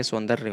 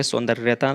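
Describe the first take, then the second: First: सौंदर्य ending on "darya", no "ta"; correct form. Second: सौंदर्यता with extra "ta" at the end; wrong form. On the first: Teacher giving the correction, सौंदर्य without final "ta". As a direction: stop सौंदर्य at the "rya". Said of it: "ये सौंदर्य होता है". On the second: Teacher rejecting the wrong word, सौंदर्यता ending in "ta". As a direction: add a final "ta" to सौंदर्यता. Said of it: "सौंदर्यता नहीं होता". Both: Shown as a demonstration.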